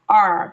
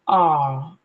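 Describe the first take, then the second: First: It is said with an American accent. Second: It is said with a British accent.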